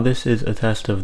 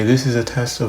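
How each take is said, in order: First: The voice sounds clear with little background hiss. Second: There is noticeable background hiss behind the voice. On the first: The speaker calls it right. "in general it sounds a lot better" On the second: The speaker calls it wrong. "the Boya has much less background hiss than the iPhone does"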